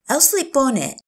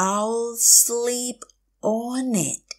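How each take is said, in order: First: Said in the usual way. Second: Long "I'll sleep", pause, then "on it"; slow teacher model of "I'll sleep on it"; slow, drawn out. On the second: Shown as a demonstration. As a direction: stretch each word of "I'll sleep on it". Teacher repeats phrase slowly.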